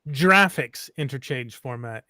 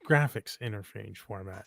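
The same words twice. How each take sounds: First: Graphics begins with a soft J sound. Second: Graphics begins with a hard G sound. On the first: The speaker calls it wrong. "It's not" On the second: The speaker calls it right. "It's a hard G"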